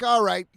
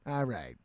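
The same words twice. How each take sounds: First: Said in the usual way. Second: Quiet low "All right." let it sink; resigned. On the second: Retold or imitated. Accepts the money.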